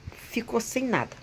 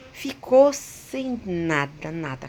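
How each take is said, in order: First: Said in the usual way. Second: "Ficou sem nada" drawn out slowly and louder; slow, weighty stress on "Ficou sem nada"; emphatic repetition. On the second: Real, not acted. Emphatic repeat of total loss.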